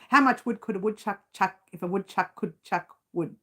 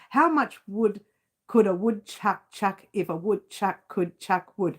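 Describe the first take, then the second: First: The sentence is spoken quickly. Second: The sentence is spoken slowly and carefully. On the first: "Let's try it fast" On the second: "Now that's slow"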